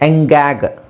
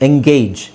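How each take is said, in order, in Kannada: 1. ಈ ಪದ hard g ಶಬ್ದದಲ್ಲಿ ಕೊನೆಯಾಗುತ್ತದೆ. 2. ಈ ಪದ j ಶಬ್ದದಲ್ಲಿ ಕೊನೆಯಾಗುತ್ತದೆ.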